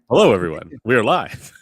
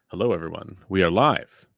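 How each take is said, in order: First: It is said with enthusiasm and excitement. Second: It is said flatly, without much energy.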